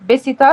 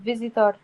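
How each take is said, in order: First: The word begins with a b sound. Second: The word begins with a v sound.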